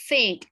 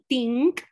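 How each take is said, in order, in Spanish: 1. La palabra empieza con un sonido th suave. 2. La palabra empieza con un sonido t fuerte. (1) "Entonces uno dice, no" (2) "en vez de decir, dicen, t"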